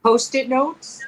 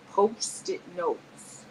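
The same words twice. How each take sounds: First: Said in the usual way. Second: "Post-it notes" very slow, each word separated; lower, softer, careful "Post-it notes"; sounded-out pronunciation. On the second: Shown as a demonstration. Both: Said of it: "made fun of how I said".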